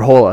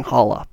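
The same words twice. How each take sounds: First: "Hola" with a long o, "HOH-la"; alternative pronunciation of Hola. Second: "Holla" said like "holler" without the r; first pronunciation of Holla. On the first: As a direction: say "Hola" with the first vowel as in "hole". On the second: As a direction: say "Holla" with a short open first vowel, as in "hall". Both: Real, not acted. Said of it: "or Hola, however you pronounce it".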